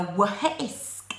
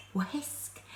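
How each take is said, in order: First: "whisk" with a breathy h before the w, like "wuh-hisk"; wrong h sound. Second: "whisk" with a clean w and no h; correct wh sound. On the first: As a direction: say "whisk" the wrong way, pushing an h after the w. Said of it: "You don't go whisk". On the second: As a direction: say "whisk" simply as "wisk". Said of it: "You say wha-, isk, whisk". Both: Shown as a demonstration.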